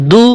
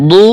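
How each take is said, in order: First: দু with a thin, light d; short vowel on a light দু; light dal. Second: দু with a thick, dark d; emphatic Arabic d in দু; heavy dad. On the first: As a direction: keep দু clean and light. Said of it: "পাতলা হবে". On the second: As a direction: fill the mouth for a heavy দু. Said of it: "মোটা হবে". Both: Shown as a demonstration.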